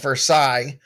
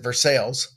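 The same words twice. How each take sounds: First: The name is said the standard way. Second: The name is said the local way. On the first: This is how the name is spelled elsewhere. "We have Versailles" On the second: This is how people here say it. "but we pronounce it Versailles"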